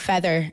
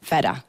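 First: It is said in a neutral accent. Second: It is said in a Sierra Leonean accent.

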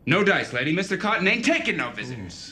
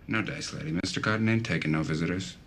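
First: It sounds tense and forceful. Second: It sounds relaxed and offhand.

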